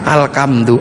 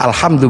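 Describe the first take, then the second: First: The second consonant is a k sound. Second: The second consonant is an h sound. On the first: "menjadi alkam, alkamdu" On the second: "gak punya huruf ha"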